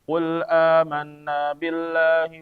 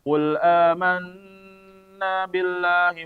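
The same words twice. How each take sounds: First: It is read quickly with a short nasal. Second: It is read quickly but the nasal is stretched. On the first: The speaker calls it right. "cepat nih" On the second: The speaker calls it wrong. "Jangan sampai bacanya kita baca cepat tapi dilamain di situ. Ini keliru juga ya"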